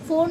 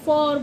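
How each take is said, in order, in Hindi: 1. यह स्वर बंद 'oh' ध्वनि है। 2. यह स्वर खुला 'aw' ध्वनि है। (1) "ओ ओ की वॉइस निकालेगा फोर, फोर नहीं बोलते" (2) "फॉर बोलते हैं"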